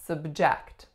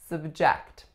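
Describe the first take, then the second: First: The stress is on the second syllable. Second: The stress is on the second syllable.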